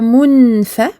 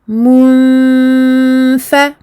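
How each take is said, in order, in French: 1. Le n est clair, la langue contre le palais. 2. Le n est caché dans un long son nasal. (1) "je ne dis pas munfa ... sinon ce serait un noun clair" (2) "Je vais faire la runna du irfa"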